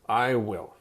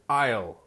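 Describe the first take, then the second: First: Both words are said fully and separately. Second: The two words merge into one short syllable. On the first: "If you say I will, it's okay" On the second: "we put I and will together"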